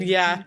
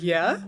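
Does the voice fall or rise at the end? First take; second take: fall; rise. First: The voice falls like a statement. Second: The voice rises like a question.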